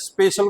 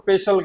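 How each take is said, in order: First: It starts with a plain 'sp' cluster. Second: A vowel is inserted, giving 'sa-pe-shal'.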